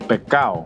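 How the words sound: It is said in a Puerto Rican Spanish accent. "but we say pecado"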